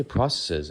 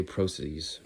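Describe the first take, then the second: First: Said in the usual way. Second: "processes" said PRO-seez, long O; British-style processes. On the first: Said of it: "I say processes". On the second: Shown as a demonstration. Vlogger imitating a video's British-style "processes", long O and "-eez". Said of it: "I think it's a British pronunciation".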